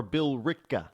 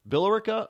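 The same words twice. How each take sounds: First: Billerica as bill-RICKA, three syllables; shortened pronunciation. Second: Billerica in four syllables, BILL-er-icka; full pronunciation. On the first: Host offering both ways to listeners, Billerica shortened to bill-ricka. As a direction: say Billerica with the E dropped. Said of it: "The E silent". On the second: Host offering both ways to listeners, Billerica with every syllable, BILL-er-icka. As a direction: say Billerica with the E sounded. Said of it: "Pronunciation is everything". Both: Shown as a demonstration.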